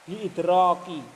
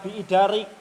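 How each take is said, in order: First: The long vowel comes right after the r. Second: The long vowel comes right after the d. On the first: The speaker calls it right. "Yang betul alifnya setelah ro" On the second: The speaker calls it wrong. "Jadi ada alif setelah dal itu salah"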